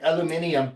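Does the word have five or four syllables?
five. It has an extra syllable near the end. The speaker calls it wrong. "adds like an unnecessary"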